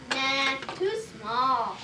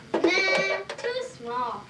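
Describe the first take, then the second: First: Slow dismissive nah. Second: Said in the usual way. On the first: Acted. Doctor rejects small needle.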